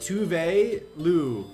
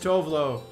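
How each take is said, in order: First: The name is said in its original way. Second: The name is said in the common anglicized way. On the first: This is the name's proper pronunciation. "It's pronounced like" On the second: This is how most people say the name. "But most people say Tovlo"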